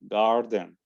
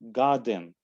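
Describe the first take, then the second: First: It is said in an American accent. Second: It is said in a British accent. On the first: "then American"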